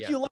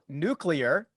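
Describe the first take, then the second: First: The word is said as nu-cu-lar. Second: The word is said as nu-clee-ar. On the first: The speaker calls it wrong. "which a podcast review told me I was pronouncing incorrectly" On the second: The speaker calls it right. "forces someone to go nuclear"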